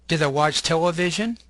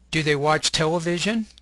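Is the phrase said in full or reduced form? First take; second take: reduced; full. First: The words are weakened and run together. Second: Each word is said fully and separately. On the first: "The second column has a reduced form" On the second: "you'll have the long form"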